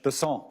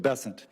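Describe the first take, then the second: First: The name is pronounced the French way. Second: The name is pronounced the English way. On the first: "with a French Besant" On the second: "That's what those folks in South Carolina do"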